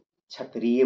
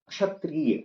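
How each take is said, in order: First: It is said with the colloquial regional pronunciation. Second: It is said with the standard careful pronunciation. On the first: The speaker calls it wrong. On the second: The speaker calls it right.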